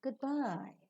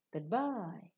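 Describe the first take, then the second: First: GOODBYE with BYE lifted high; polite parting tone. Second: GOODBYE closed with a fall. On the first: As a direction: raise the pitch on bye in goodbye. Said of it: "rising tone also is given to the greetings". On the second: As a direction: let bye drop in goodbye. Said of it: "especially associated with partings". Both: Shown as a demonstration.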